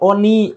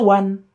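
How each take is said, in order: First: It is read as spelled, like 'oni'. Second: It is said the English way, like 'wun'. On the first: This is how the spelling suggests it should sound. "Harusnya dibaca Oni" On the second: This is how English speakers actually say it. "Tapi dia baca One"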